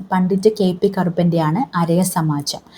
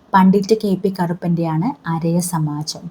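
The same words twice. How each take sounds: Both takes have the same delivery.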